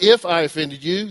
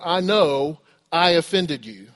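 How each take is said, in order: First: "if" hit hard, rise at the end; stress on "if". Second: "know" drawn out with conviction; stress on "know". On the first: Preacher rejecting a false apology, stress on "if". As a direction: contrast the word "if" against certainty. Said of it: "It's not". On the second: Model of repentance to someone hurt, stress on "know". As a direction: slowly own it, weight on "know". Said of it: "Repentance is". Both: Shown as a demonstration.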